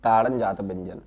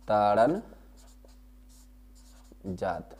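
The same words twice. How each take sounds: First: Said in the usual way. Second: ताड़न and जात split by a long pause, the second soft; slow dictation. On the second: Shown as a demonstration. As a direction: dictate the term word by word. (शब्द अलग-अलग रुककर बोलना) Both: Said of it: "क्या बोलते हैं इनको".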